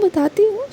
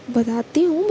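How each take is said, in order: First: बताती हूँ pitched much higher and louder, बताती rising; emphatic repeat. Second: Said in the usual way. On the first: A narrator's reading. Younger sister brushing off her sister's questions, insistent and higher.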